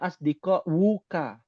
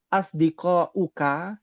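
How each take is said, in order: First: The last word starts with a w sound. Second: The last word starts with a plain vowel. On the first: The speaker calls it wrong. "Bukan dibacanya asdiko wuka" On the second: The speaker calls it right. "Cara bacanya tetap sama"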